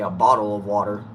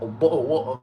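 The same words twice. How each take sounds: First: It is said in an American accent. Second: It is said in a British accent. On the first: "we just say a bottle of water. Ours is more pronounced" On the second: "y'all got a bottle of water"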